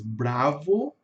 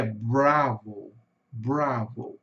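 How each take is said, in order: First: "bravo" with tapped Brazilian R, pitch rising; Portuguese pronunciation. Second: "bravo" slow, stressed first syllable dying away; English pronunciation. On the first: Teacher showing how we speak in Portuguese, Brazilian pronunciation. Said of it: "nós falamos em português bravo". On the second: Teacher demonstrating the English stress, English pronunciation. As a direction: curl the R in "bravo", let the ending fall. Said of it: "vai diminuindo pro final". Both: Shown as a demonstration.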